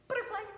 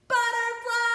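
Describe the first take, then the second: First: It is said very quickly. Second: It is said very loudly.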